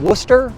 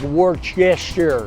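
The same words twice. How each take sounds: First: The name is said short, with letters dropped. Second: The name is said with every letter sounded. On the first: This is how locals say the name. "you ever heard of Worcester?" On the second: This is how the name looks written on a map. "You read a map, it says like Worcester"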